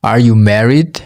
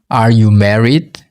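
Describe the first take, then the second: No difference in how they are said.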